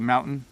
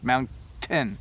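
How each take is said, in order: First: The T is soft, without a full stop. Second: The T is a full, complete stop. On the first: "when we talk fast, we don't really make a full stop" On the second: "My tongue is just behind my teeth and at the roof of my mouth"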